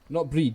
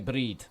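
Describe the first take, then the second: First: The R is plain, not rolled. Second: The R is rolled in the name. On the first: The speaker calls it wrong. "Not breed, because that's bread in Scottish" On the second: The speaker calls it right. "roll the R, like pro- it's a proper Scottish pronunciation"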